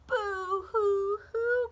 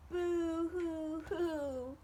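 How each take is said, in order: First: High, loud, slow hammed-up sobbing; slow, loud mock boo-hoo sobs in a high bird voice; boo-hoo crying. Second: Slow, higher mock sobbing; slow, high hammed-up group sob; boo-hoo crying. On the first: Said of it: "cried Bird". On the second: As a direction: draw out "Boo-hoo-hoo" as the sad friends cry together. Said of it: "cried Bird's friends together".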